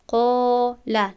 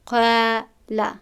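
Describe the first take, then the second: First: The long a is full and heavy. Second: The long a is thin and light. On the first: The speaker calls it right. "الف رو با دهانی پر تلفظ میکنیم، میگوییم" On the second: The speaker calls it wrong. "نمیگوییم"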